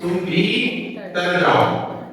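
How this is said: There is a pause after 'भी'.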